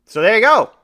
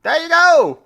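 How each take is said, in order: First: Put-on London accent. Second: High, hammed-up London accent; attempted London accent. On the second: Host tries a London accent for the listeners, hammed up. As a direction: try out a cheeky London accent. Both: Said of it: "I'm trying to think of a London accent".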